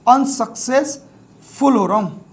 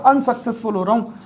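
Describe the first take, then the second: First: unsuccessful slowly, in drawn-out chunks; sounded out slowly. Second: Said in the usual way. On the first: Shown as a demonstration. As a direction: dictate unsuccessful piece by piece, as un, success, ful. Teacher sounds word out while writing.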